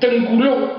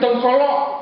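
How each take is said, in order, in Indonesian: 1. Suku kedua punya vokal 'u'. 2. Suku kedua punya vokal 'o'. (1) "Tengkuluk bukan tengkolok" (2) "bukan tengkolok"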